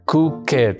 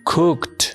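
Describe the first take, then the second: First: The ending is said as an extra syllable. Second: The ending is a short t sound. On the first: The speaker calls it wrong. "no se pronuncia cooked" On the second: The speaker calls it right. "Se dice cooked"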